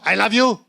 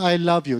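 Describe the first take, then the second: First: It is said in a harsh, fierce tone. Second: It is said in a gentle, loving tone.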